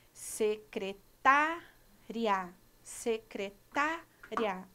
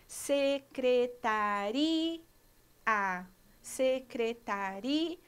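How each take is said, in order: First: Secretária said very slowly, i and a glided together; slow teacher's demo of secretária; joined vowels. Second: Secretaria said very slowly, i and a apart; slow teacher's demo of secretaria; separated vowels. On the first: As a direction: blend the i and a of secretária into one syllable. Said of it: "Olha o som vocálico do i e do a juntos". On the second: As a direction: pull the final i and a of secretaria into two syllables. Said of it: "Olha o som vocálico separado". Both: Shown as a demonstration.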